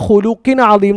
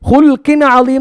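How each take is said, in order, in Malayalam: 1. ഒരു ചെറിയ സ്വരാക്ഷരം L-നെയും K-യെയും വേർതിരിക്കുന്നു. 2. L നേരെ സ്വരാക്ഷരമില്ലാതെ K-യിലേക്ക് കടക്കുന്നു. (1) "ഹുലുക്കിൻ അലീം എന്നാണ്. ഇതാണ് ശരി" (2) "ഇത് തെറ്റാണ്"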